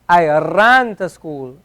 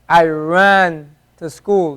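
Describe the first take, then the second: First: The r is tapped off the tongue. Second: The r is a plain English r. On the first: The speaker calls it right. "This is closer to the the ra" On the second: The speaker calls it wrong. "like the English R, where you say r"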